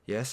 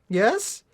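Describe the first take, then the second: First: It is said in a croaky, weak voice. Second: It is said in a clear, confident voice.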